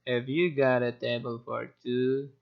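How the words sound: The pitch stays flat and monotone.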